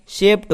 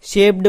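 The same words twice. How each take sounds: First: शेप्ड ending in an unvoiced ट; correct pronunciation. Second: शेप्ड ending in a voiced ड; wrong pronunciation. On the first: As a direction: say शेप्ड as "shept", with a T at the end. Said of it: "इसका उच्चारण अलग होता है". (शेप्ड के अंत में ड की जगह ट) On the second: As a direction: say शेप्ड with a hard D at the end. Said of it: "कुछ लोग इसका गलत उच्चारण करते हैं". (शेप्ड के अंत में ड की आवाज़) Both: Shown as a demonstration.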